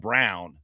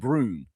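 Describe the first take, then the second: First: The vowel sounds like 'ow' in 'town'. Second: The vowel sounds like 'oo' in 'noon'. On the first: The name is said the way it is spelled. "I don't call him Brown" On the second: The name is given a mock-foreign pronunciation. "I call him Brune"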